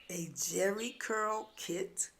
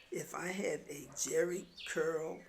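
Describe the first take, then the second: First: Slow, drawn-out disbelief on jerry curl; dawning surprise. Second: Said in the usual way. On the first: Retold or imitated. Narrator realizing what the sister means, slow incredulous question. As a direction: let the penny drop slowly.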